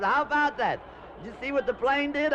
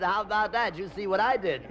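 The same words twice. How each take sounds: First: Higher, excited hostess voice; hostess amazed. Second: Said in the usual way. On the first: Acted. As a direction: gush about the plane. Hostess marvels at the plane.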